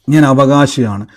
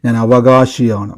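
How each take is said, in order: First: Said in the usual way. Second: Low, slow and drawn out on "അവകാശിയാണ്"; a deep, unhurried vow the crowd can repeat; solemn declaration. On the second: Shown as a demonstration. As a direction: lead the church in "ഞാൻ അവകാശിയാണ്", lower and very slow. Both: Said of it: "എൻ്റെ കൂടെ ഇന്ന് എല്ലാവരും പറയണം".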